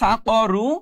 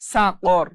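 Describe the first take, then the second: First: The word ends with a short u vowel. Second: The word ends on the consonant r. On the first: This is the full reading without stopping. "ছিল সা করু" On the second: The reader stops at this word. "থামার কারণে এখানে উচ্চারণ হচ্ছে সা কর"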